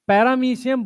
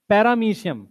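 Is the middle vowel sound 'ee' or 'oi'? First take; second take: ee; ee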